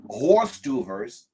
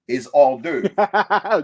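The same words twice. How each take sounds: First: "horse tuvers" said slowly and spelled out, like the letters; mock the misreading "horse tuvers", slowly; wrong pronunciation. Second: "hors d'oeuvre" slowly, French style, silent h, with a light laugh; correct pronunciation. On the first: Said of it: "It's not". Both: Shown as a demonstration.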